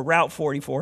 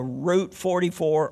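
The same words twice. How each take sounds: First: "Route" said to rhyme with out; "Route" with an ow vowel; ROWT pronunciation. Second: "Route" said to rhyme with boot; "Route" with an oo vowel; ROOT pronunciation. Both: Shown as a demonstration. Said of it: "How do you say it?".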